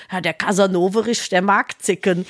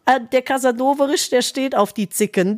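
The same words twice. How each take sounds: First: Put-on lower doting old lady. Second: Put-on lightly doting old lady. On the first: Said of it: "sagt sie so über ihren Hund". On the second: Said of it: "Das hat sie gesagt".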